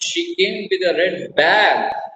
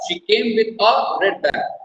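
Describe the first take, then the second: First: The stress falls on the word bag. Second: The stress falls on the word a. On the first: It was a bag, not another object. "not umbrella, not rose, bag" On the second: There was only one bag. "A red bag, not two, not three, one"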